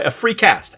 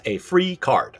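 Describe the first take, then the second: First: "cast" said clearly with an st ending; correcting to "cast". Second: "card" said clearly with rd ending; correcting to "card". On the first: Speaker untangling a slip, "cast" crisply ending in st. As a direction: land the st in "cast". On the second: Speaker untangling a slip, "card" ending clearly in rd. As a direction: land the rd in "card". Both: Shown as a demonstration. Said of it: "I tried to say card and cast".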